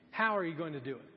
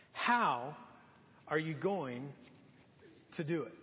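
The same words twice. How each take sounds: First: Said in the usual way. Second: "How" set alone, then pauses before "are you going" and "to do it"; emphatic broken-up question. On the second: Real, not acted. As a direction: break it into three weighty pieces: "How", "are you going", "to do it". Question repeated slowly for emphasis.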